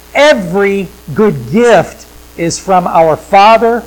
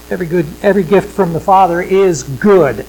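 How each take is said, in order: First: "Every" leaned on, louder and slow; slow and louder, weight on "Every"; stress on every. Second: Every gift from the Father is "good", with the weight on "good"; stress on good. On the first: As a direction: open strong on "Every", then press slowly through. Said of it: "emphasize another word". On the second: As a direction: lean on "good" at the end. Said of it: "I put my emphasis on the good". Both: Shown as a demonstration.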